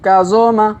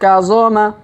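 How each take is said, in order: No difference in how they are said.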